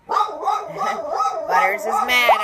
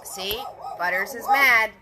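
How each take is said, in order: First: Laughing it out, higher and louder, slowly. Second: Said in the usual way. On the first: Real, not acted. Host laughing at her mad dog Butters, laughing. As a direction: crack up while saying it.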